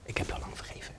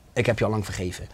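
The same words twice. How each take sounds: First: Whispered, barely audible; very soft voice. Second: Soft voice. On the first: God answering the kneeling man, whispered gently. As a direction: breathe the words like a gentle whisper. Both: Retold or imitated. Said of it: "maar hij was superzacht".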